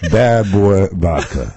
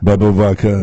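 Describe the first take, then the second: First: Each word is said clearly and separately. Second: The words are slurred together into one blur. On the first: The speaker calls it right. "you're enunciating" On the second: The speaker calls it wrong. "That's not right"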